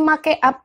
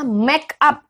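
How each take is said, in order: First: The word is pronounced as it is spelled. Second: The word is pronounced the English way. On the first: The speaker calls it wrong. "bukan make up" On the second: The speaker calls it right. "bacanya make up"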